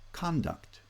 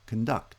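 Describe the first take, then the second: First: The stress is on the first syllable. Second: The stress is on the second syllable. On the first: It is used as a noun. "noun-verb pairs" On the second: It is used as a verb. "noun-verb pairs"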